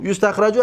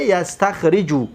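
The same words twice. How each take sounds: First: U in first syllable of یستخرجو, a after the r; passive vowel pattern. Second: A in first syllable of یستخرجو, i after the r; active vowel pattern. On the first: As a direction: say یستخرجو as "yustakhraju". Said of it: "از چی گرفته گه؟". (تلفظ مجهول یستخرجو: «یُسْتَخْرَجُ») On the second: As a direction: say یستخرجو slowly as "yastakhriju". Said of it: "یستخرجو از چی گرفته گه؟". (تلفظ معلوم یستخرجو: «یَسْتَخْرِجُ») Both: Shown as a demonstration.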